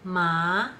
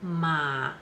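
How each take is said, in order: First: The syllable carries the second of four tones. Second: The syllable carries the third of four tones. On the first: The word means numb. "ma will have four tones" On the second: The word means horse. "ma will have four tones"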